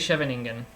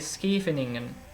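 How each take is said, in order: First: The name is said in a less Dutch-like way. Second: The name is said in a more Dutch-like way. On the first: This is how most players say it. The speaker calls it wrong. "which is what most uh, most other players would say" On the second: This is closer to the real pronunciation. The speaker calls it right. "maybe that's slightly closer to the accurate way of pronouncing it"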